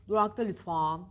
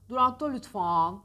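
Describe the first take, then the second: No difference in how they are said.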